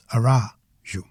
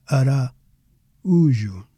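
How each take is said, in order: First: "Araújo" as a-RAU-jo, stressed on the second a. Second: "Araújo" slowly as ara, pause, Ú-jo; pause between vowels. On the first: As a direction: merge a and u in "Araújo" into a diphthong. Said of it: "the stress would fall on the A". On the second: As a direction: break before the stressed u in "Araújo". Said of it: "the accent forces us to pause". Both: Shown as a demonstration.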